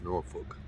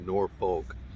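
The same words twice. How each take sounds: First: Norfolk is said in the local way. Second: Norfolk is said in a non-local way. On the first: The speaker calls it right. "It's Norfolk" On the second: The speaker calls it wrong. "it's not Norfolk. I'm pronouncing it wrong"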